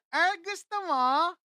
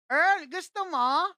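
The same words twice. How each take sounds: First: Slow, higher playful tease in a put-on girl's voice; teasing offer. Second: Put-on slow, higher sing-song tease from the neighbor girl; teasing offer. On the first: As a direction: tempt him slowly, lightly mocking. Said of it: "Sabi sa akin". (mabagal na panunukso, boses batang babae) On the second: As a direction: dangle the chocolate at him, drawn out. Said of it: "Sabi niya sa akin". (panunukso, mabagal at pakanta)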